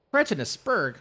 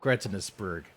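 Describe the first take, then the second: First: High, louder pompous mimicry; mocking imitation. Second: Said in the usual way. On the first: Savouring the rival's insult in a high mock voice. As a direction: ham up the phrase.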